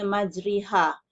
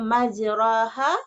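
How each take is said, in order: First: The middle vowel is a clear close i. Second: The middle vowel is a clear open a.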